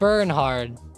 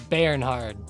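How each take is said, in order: First: The first syllable does not sound like 'Bern'. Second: The first syllable sounds like 'Bern'. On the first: The speaker calls it wrong. "It's not Bernhard" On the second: The speaker calls it right. "It's Bernhard. Like Bern"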